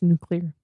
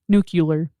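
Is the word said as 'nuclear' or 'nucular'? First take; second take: nuclear; nucular. First: The word is said with a 'clear' ending. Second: The word is said with a 'cu-lar' ending. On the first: The speaker calls it right. "now that you said it right" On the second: The speaker calls it wrong. "It's not"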